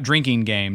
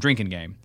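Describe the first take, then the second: First: The first word is said as ordinary 'drinking'. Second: The first word is said as 'drink' plus 'N'. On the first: The speaker calls it wrong. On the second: The speaker calls it right.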